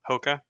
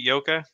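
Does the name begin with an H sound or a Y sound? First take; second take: H sound; Y sound. First: The name begins with an H sound. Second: The name begins with a Y sound. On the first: "it's an H, not a Y" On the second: "I feel like I'm culturally appropriating by saying the Y"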